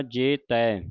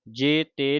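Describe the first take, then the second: First: ਜੇ ਤੈ with 'tai' on an open 'eh'; correct open ending. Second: ਜੇ ਤੇ with 'te' on a close 'ay'; wrong closed ending. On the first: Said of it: "ਜੇ ਤੇ ਨਹੀਂ ਪੜ੍ਹਨਾ". (ਜੇ ਤੈ ਦਲਾਵਾਂ ਨਾਲ) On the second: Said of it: "ਨਹੀਂ ਪੜ੍ਹਨਾ". (ਜੇ ਤੇ ਇੱਕ ਲਾਂ ਨਾਲ) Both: Shown as a demonstration.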